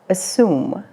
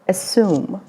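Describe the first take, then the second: First: It is said with an American accent. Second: The same.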